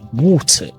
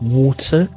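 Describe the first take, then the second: First: The final R sound is dropped. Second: The final R sound is pronounced. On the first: "you might say water" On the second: "Instead of water"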